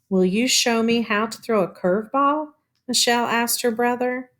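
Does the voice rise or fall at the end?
fall. The voice falls at the end like a statement.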